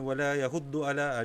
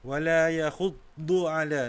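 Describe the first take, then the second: First: The doubled consonant is said quickly and short. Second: The doubled consonant is held and drawn out. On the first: The speaker calls it wrong. "Dia tak boleh laju macam tu" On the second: The speaker calls it right. "dia kena ambil masa sikit"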